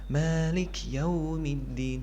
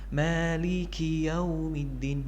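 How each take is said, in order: First: The k has no vowel after it. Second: The k is followed by a clear i. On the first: The speaker calls it wrong. "seolah-olah seperti kaf yang disukunkan atau kurang jelas" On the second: The speaker calls it right. "kaf di sini harus dibaca dengan jelas"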